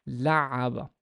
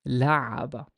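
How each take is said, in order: The two takes are said the same way.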